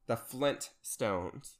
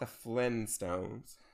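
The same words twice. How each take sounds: First: The word has a clear t after Flin. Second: The word has no t after Flin. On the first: This is the real title of the show. The speaker calls it right. "The Flintstones. Not the Flintstones" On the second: This is the title as some people misremember it. The speaker calls it wrong. "Not the Flintstones"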